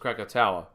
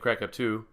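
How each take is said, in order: First: The name ends in a 'toe-uh' sound. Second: The name ends in a single 'too' sound. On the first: The speaker calls it right. "but it was Krakatoa" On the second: The speaker calls it wrong. "I was pronouncing it Krakatu"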